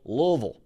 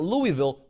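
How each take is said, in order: First: Louisville is said the way Kentucky locals say it. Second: Louisville is said the way outsiders say it. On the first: The speaker calls it right. "For the folks out there in Kentucky that uh, pronounce that the correct way" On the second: The speaker calls it wrong. "not Louisville"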